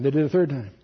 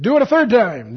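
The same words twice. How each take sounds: First: Said in the usual way. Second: Loud, high order; commanding. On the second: Acted. Elijah ordering water a third time, loud command. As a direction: call out the order firmly. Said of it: "He said".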